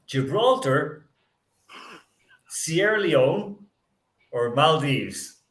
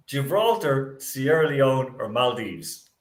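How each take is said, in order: First: Each option drawn out slowly with a pause after; slow dramatic reading. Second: Said in the usual way. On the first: Shown as a demonstration. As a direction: read the choices slowly, building suspense.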